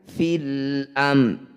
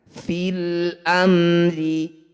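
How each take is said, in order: First: The final r sound is not pronounced. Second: The final r sound is pronounced. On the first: The reading stops at this word. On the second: The reading continues without stopping.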